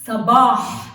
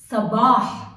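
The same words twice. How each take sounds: First: Sabah with a breathy final ḥ; Arabic pronunciation. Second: Sabah repeated with a throaty final ḥ; Arabic pronunciation. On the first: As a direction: Sabah said loud, ending in a throaty ḥ. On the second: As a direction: sabah said again, clear ḥ at the end. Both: Shown as a demonstration. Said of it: "examples about the ha".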